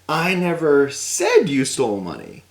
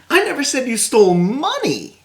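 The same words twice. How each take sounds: First: The word said carries the stress. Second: The word money carries the stress. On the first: It was implied rather than said. "But maybe I implied it in a certain way" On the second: Something other than money was stolen. "well you stole something, but it just it wasn't cash value"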